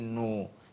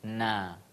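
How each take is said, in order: First: The syllable sounds thick, with a darker vowel. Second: The syllable sounds thin, with an open vowel. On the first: The speaker calls it wrong. "diangkat e, lidah kita di dalam sehingga terdengar seperti nu" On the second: The speaker calls it right. "buka mulut sehingga terdengar suara tipis"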